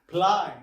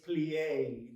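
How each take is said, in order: First: The word is said as one syllable. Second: The word is said as two syllables. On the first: The speaker calls it wrong. "mispronounce the words" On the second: The speaker calls it right. "two syllables"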